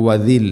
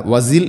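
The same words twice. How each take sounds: First: വദിൽ with tongue-tip "dh", as "wadhil"; correct dh sound. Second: വസിൽ said with a plain "z" for "dh"; wrong z sound. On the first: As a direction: put the tongue between the teeth for the dh in വദിൽ. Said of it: "വസിൽ എന്നല്ല". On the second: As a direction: say വസിൽ as "wazil", buzzing z. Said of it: "എന്നല്ല". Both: Shown as a demonstration.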